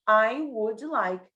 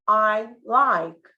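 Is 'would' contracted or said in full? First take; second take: full; contracted. First: The word would is pronounced as a full word. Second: Would shrinks to a silent d-length gap.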